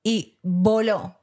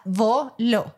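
First: Voló stretched out slowly; dramatic pause. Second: Voló drawn out slow and weighty; slow emphasis. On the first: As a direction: let voló hang slow for drama. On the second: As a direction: hold voló long and heavy. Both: Shown as a demonstration. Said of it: "O sea, voló".

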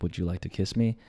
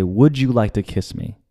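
First: Nervous whisper-soft ask. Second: Said in the usual way. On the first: Retold or imitated. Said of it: "I get really nervous". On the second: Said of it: "like, I say".

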